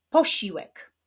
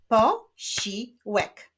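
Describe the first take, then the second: First: Said in the usual way. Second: "Posiłek" slowly as po, si, łek; split into syllables. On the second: Shown as a demonstration. Teacher clapping syllables of posiłek, slowly split. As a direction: clap out "Posiłek" in three separate beats. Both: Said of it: "Wyklaszczmy sylaby w tych wyrazach".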